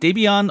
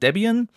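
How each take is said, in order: First: The name is pronounced the German way. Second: The name is pronounced the English way.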